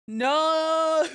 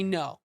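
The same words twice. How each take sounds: First: It is said much louder, almost shouted. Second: It is said at normal, quieter volume.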